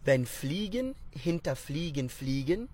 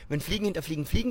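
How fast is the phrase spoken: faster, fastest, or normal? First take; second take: normal; fastest. First: The phrase is spoken at a normal pace. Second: The phrase is spoken faster still.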